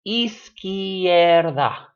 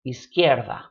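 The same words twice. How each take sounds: First: Izquierda stretched out very slowly, louder; "izquierda" at teaching speed, loud and drawn out; drawn-out syllables. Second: Said in the usual way. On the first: Shown as a demonstration. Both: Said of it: "this word is only three syllables".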